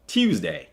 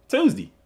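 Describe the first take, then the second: First: "Tuesday" as "Tyoozday" with a y glide and a full "day"; careful "Tuesday", every sound clear; lower, softer proper "Tuesday". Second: "Tuesday" as "Toozdee" with no y glide; higher, playful "Tuesday" with a "dee" ending; Southern Tuesday. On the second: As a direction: say "Tuesday" his home way, "Toozdee". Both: Shown as a demonstration. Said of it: "that sounds proper".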